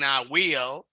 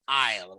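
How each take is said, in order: First: Both words are said in full. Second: The two words are contracted into one syllable. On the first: "instead of saying I will" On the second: "you may say I'll"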